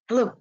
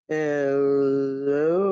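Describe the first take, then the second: First: It is said fast. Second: It is said slowly.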